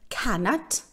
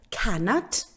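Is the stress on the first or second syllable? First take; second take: first; first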